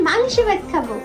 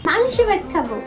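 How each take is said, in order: No difference in how they are said.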